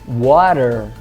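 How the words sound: The final R is pronounced, American style. "inglês americano"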